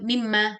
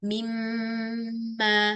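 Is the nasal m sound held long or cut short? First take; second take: short; long. First: The nasal m sound is cut short. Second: The nasal m sound is held long. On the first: The speaker calls it wrong. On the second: The speaker calls it right. "gunnah yaitu diberikan zaman"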